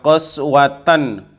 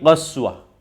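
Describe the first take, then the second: First: The word ends with a t sound. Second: The word ends with an h sound. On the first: The reading continues into the next word. "Misalnya lanjut adalah qaswatan wa inna" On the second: The reading stops after this word. "Tapi kalau dia berhenti qaswah"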